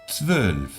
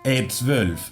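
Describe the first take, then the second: First: The word starts directly with the consonant cluster. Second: An extra vowel sound comes before the cluster. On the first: The speaker calls it right. "es interesante que no pongamos una E delante" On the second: The speaker calls it wrong. "es muy típico poner una E. ... Queda muy feo, sucio"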